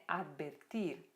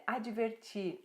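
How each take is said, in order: First: Second "advertir" as ad-ber-TIR; Spanish pronunciation. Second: First "advertir" as a-dji-ver-TCHIR; Portuguese pronunciation. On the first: Teacher gives the Spanish verb, "advertir" as ad-ber-TIR. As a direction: say "advertir" with b for v and a hard t. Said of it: "advertir é advertir". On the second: Teacher gives students their word first, "advertir" in Brazilian Portuguese. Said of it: "Verbos terminados em ir". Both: Shown as a demonstration.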